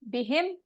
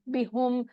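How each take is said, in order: First: The pronoun is said with an i vowel. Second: The pronoun is said with a u vowel. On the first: The speaker calls it right. "आसानी के लिए अरबों ने क्या किया कि जेर लगा दिया" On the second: The speaker calls it wrong. "बी हु नहीं बोला जाता आसानी से"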